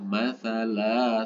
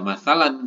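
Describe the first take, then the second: First: The word ends with a lengthened vowel. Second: The word ends with an n sound. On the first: The speaker calls it right. "tapi dibaca masalah satu ayunan" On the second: The speaker calls it wrong. "bukan dibaca masalan kalau berhenti"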